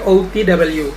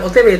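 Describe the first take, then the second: First: The letters are said with English letter names. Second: The letters are said with Indonesian letter names. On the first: The speaker calls it right. "harusnya juga penyebutannya ... tapi O T W" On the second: The speaker calls it wrong. "bukan O T W"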